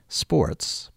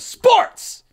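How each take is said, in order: First: The word is said at normal speaking volume. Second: The word is yelled at high volume. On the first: It is just an ordinary word. The speaker calls it wrong. "I can't just say sports because that would be... you know, a regular word" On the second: The title is written in all caps. The speaker calls it right. "you have to yell sports like that"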